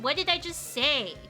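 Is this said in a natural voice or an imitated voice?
natural. It is said with natural intonation. It is the speaker's own way of talking. "Whereas if I were to say it"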